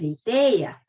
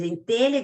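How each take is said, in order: First: "teia" said with a plain i sound and no lh; "teia" for telha, country style; popular pronunciation. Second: "telha" said with a clear lh sound, as in "telhado"; "telha" with a full palatal lh; standard pronunciation. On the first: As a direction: drop the lh, say "teia" the folksy Brazilian way. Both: Shown as a demonstration. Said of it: "Para dizer em telha, diz em teia".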